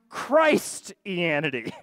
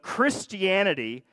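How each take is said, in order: First: The first syllable sounds like the word 'Christ'. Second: The first syllable does not sound like 'Christ'. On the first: "I worship Christ" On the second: "change the pronunciation of Christianity"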